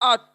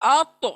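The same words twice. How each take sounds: First: The final t stops flat with no bounce. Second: The final t is strengthened with a half bounce. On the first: The speaker calls it wrong. "इसको हम अत नॉर्मली कैसे पढ़ते हैं" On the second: The speaker calls it right. "तो को डबल करना है"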